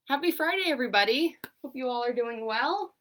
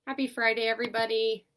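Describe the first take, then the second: First: Bright, higher, louder hello; upbeat greeting. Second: Said in the usual way. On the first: Acted. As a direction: greet the class with big energy. On-camera greeting after set-up.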